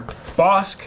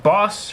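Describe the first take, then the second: First: "Bosk" as one syllable, C sounded as K; pronounced like Bosk. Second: "Boss" as one syllable with a silent C; pronounced like Boss. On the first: Reviewer guessing at a model name, "Bosk" ending in K. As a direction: say "Bosk" with a hard K after the S. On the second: Reviewer guessing at a model name, "Boss" without a K. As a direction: say "Boss" ending on a plain S, no K. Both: Shown as a demonstration. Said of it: "not sure if you pronounce that".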